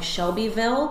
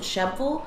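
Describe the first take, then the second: First: It is said fully, following the spelling. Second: It is said shortened, in a local Southern way. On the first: This is how the spelling suggests saying it. "which is spelled like Shelbyville" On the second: This is how locals say it. "but we pronounce it Shebville"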